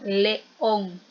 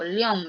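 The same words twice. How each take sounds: First: The vowels e and o form two syllables. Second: The vowels e and o merge into one syllable. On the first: The speaker calls it right. "Digo león. Hacemos esa fuerza" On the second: The speaker calls it wrong. "no digo"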